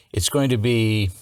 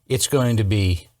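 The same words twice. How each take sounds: The two takes are said the same way.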